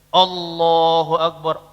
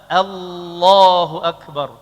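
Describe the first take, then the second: First: The opening hamzah vowel sounds heavy and thick. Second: The opening hamzah vowel sounds light and thin. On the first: The speaker calls it wrong. "Tidak boleh" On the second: The speaker calls it right. "Tidak terpengaruh dengan tebalnya huruf setelahnya"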